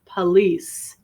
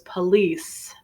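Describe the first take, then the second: First: It is said the General American way. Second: It is said the General American way.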